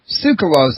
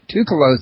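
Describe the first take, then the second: First: The name begins with a "ts" sound. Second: The name begins with a plain "t" sound. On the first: The speaker calls it right. "I just heard you uh, pronounce his last name Tsoukalos" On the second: The speaker calls it wrong. "I always pronounced it Toukalos"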